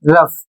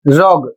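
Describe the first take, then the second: First: It ends with an 'f' sound. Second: It ends with a 'g' sound. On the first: The speaker calls it right. "जबकि इसे सही उच्चारित किया जाता है रफ" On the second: The speaker calls it wrong. "बहुत लोग इसे पढ़ते हैं रोग"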